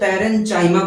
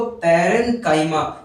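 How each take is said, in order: First: The middle consonant is a 'ch' sound. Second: The middle consonant is a 'k' sound. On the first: The speaker calls it wrong. "कुछ बच्चे इसको पैरेनचाइमा पढ़ते हैं, बिल्कुल बेटा गलत है" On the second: The speaker calls it right. "ध्यान से पढ़ना इसको"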